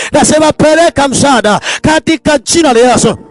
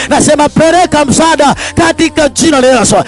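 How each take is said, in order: The two takes are said the same way.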